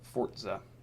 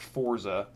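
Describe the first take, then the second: First: The middle consonant is a ts sound. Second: The middle consonant is a plain z sound. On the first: The speaker calls it right. "That's actually how it's supposed to be pronounced" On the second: The speaker calls it wrong. "not Forza"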